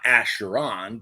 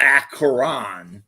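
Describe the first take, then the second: First: The middle consonant is a sh sound. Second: The middle consonant is a k sound. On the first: The speaker calls it wrong. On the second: The speaker calls it right. "if there's a C and an H, it's a k sound"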